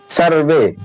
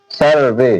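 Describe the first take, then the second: First: सर्वे said slowly with a clear ए at the end; pronunciation demo. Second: सर्वे repeated low with the final ए stressed; pronunciation demo. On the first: Teacher models सर्वे for students, carefully. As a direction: sound out सर्वे as sur-vay. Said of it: "तो इसे क्या पढ़ा जा रहा है?". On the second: Teacher repeats सर्वे for the class, lower and careful. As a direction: sound out सर्वे, ending in ए. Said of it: "ए". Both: Shown as a demonstration.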